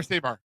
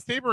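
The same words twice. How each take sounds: First: "Sabre" as SAY-bar; second pronunciation. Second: "Sabre" as SAY-ber; first pronunciation. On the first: Host asks John about UK usage, "Sabre" as SAY-bar. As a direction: end "Sabre" on a full bar sound. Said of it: "I always hear it both ways". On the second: Host asks John about UK usage, "Sabre" as SAY-ber. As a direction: end "Sabre" on a reduced ber sound. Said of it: "in the U K". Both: Shown as a demonstration.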